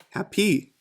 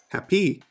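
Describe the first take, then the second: First: The stress is on the second syllable. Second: The stress is on the second syllable.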